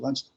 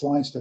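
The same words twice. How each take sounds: First: The name is said the way locals say it. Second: The name is said the way it looks written. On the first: The speaker calls it right. "They pronounce it Leinster" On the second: The speaker calls it wrong. "It looks like it's Leinster"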